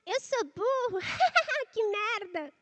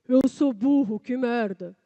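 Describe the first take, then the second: First: It is said in a silly witch-like voice. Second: It is said in a thick, deep voice. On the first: "Por exemplo, a da bruxa" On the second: "Agora você vai engrossar essa voz"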